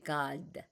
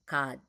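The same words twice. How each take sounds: First: The final consonant is audibly released. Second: The final consonant is held without release. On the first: The speaker calls it wrong. "we don't say God" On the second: The speaker calls it right. "we don't have that final consonant resonating"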